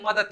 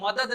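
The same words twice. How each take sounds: First: 'मदद' ending in t, as madat; colloquial pronunciation. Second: 'मदद' ending in a voiced d; spelling pronunciation. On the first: Teacher showing everyday speech, 'मदद' said madat. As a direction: harden the end of 'मदद' to t. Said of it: "त लगा देते हैं". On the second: Teacher showing the written form, 'मदद' with final d. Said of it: "मदद नहीं बोल के". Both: Shown as a demonstration.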